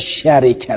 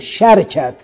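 First: First vowel a, vowel i after r. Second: First vowel a, no vowel after r. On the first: "به فتح و کسر" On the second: "او به فتح و سکون"

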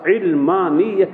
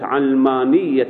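First: The first vowel is an 'i' sound. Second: The first vowel is an 'a' sound. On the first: The word is derived from knowledge. "بكسر العين لا بفتحها" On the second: The word is derived from the world. "بفتح العين"

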